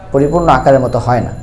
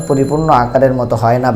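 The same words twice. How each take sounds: The two takes are said the same way.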